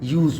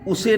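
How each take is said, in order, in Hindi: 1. s के बाद कोई स्वर सुनाई नहीं देता है। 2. s के बाद एक स्वर सुनाई देता है। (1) "हम यूज़ बोलेंगे" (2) "उसे ना बोल करके"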